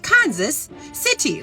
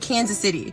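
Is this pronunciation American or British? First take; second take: British; American. First: It is said British-style, every syllable fully pronounced. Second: It is said in a casual American way. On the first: "they say Kansas City. Like they pronounce the whole" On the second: "we say Kansas City"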